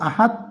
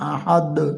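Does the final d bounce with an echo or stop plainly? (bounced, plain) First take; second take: plain; bounced. First: The final d stops flat with no echo. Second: The final d bounces with a slight echo. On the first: The speaker calls it wrong. "আহাদ বলেই হবে না" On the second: The speaker calls it right. "এই অক্ষরটা দুইবার উচ্চারিত হয়"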